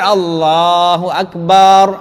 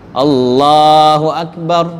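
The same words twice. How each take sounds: First: A vowel in Akbar is drawn out long. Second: The words are said plainly, vowels kept short. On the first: God is drums. The speaker calls it wrong. "kalau dipanjangkan" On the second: God is the greatest. The speaker calls it right. "gitu aja dah langsung"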